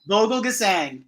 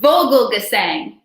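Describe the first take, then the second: First: Vogelgesang repeated as VOH-gel-ke-sang, softly falling; corrected name. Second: Vogelgesang said as VOH-gel-ge-sang, falling; Vogelgesang, the right German way; correct name. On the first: Real, not acted. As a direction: Vogelgesang copied back, settling it. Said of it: "There we go". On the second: Shown as a demonstration. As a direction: Vogelgesang spelled out in sound, first syllable VOH. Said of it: "Did I say that right?".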